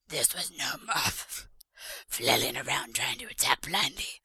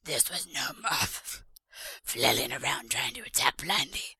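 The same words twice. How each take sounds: First: It is read in a put-on character voice. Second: It is read in a put-on character voice.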